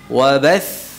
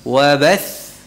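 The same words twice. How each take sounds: The two takes are said the same way.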